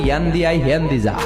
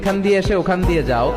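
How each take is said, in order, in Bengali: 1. এটা নোয়াখালী উপভাষার সংক্ষিপ্ত রূপে বলা হয়েছে। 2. এটা সম্পূর্ণ প্রমিত বাংলা রূপে বলা হয়েছে। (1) "ওরা বলে ... শর্ট হয়ে গেল না?" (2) "আমরা বলি"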